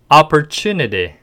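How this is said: It is said with a heavy, smooth American accent. "버터 한번 발라서 발음해 볼까요?"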